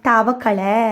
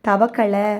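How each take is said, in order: No difference in how they are said.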